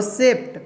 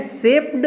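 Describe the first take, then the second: First: "सेप्ट" with an easy final T; ending read as T. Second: "सेप्ड" with a voiced D after P; ending read as D. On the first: Teacher compares both readings for learners, "सेप्ट" ending in T. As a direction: pronounce "सेप्ट" ending straight in T. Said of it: "सेप्ट बोलते हैं तो तुरंत बोल लेते हैं". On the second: Teacher compares both readings for learners, "सेप्ड" ending in D. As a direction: pronounce "सेप्ड" with a hard-to-say D ending. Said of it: "इसका उच्चारण थोड़ा सा मुश्किल होता है". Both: Shown as a demonstration.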